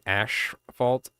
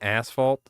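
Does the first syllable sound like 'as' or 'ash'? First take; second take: ash; as. First: The first syllable is an accentuated 'ash' sound. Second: The first syllable is a plain 'as' sound. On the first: "I just love accentuating the ash part" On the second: "Instead of saying asphalt"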